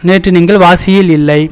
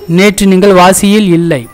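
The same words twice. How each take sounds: Both takes have the same delivery.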